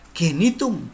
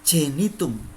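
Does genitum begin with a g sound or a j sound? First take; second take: g sound; j sound. First: Genitum begins with a hard g sound. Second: Genitum begins with a j sound. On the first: The speaker calls it wrong. "tidak boleh membaca genitum" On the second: The speaker calls it right. "G itu dibaca seperti J H, jejak"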